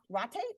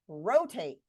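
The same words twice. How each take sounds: First: The first vowel is short, as in rot. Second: The first vowel is long, as in rose. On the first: The speaker calls it wrong. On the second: The speaker calls it right. "That O is going to say O"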